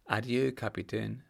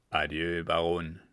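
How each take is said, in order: First: Said in the usual way. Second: A lower, curt "Adieu"; the captain's lower, curt "Adieu, Baron" as the baron leaves; low curt farewell. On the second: Acted. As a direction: drop the voice, brusque goodbye.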